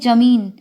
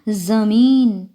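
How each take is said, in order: First: The first consonant is a plain j sound. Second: The first consonant is a z sound. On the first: "हम साधारण उसमें बोलें तो बोलते हैं जमीन" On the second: "ज के नीचे हम बिंदी लगा दें तो बोला जाएगा जमीन"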